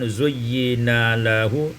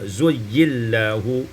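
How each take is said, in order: First: The n sound is kept before lahu. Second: The n merges into the following l.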